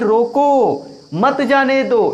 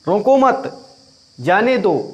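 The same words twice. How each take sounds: First: There is a pause right after 'roko'. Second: There is a pause right after 'mat'. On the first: The guests should be stopped from leaving. "इसका अर्थ यह है कि रोक लेना है" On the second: The guests should not be stopped; let them go. "अर्थात नहीं रोकना है"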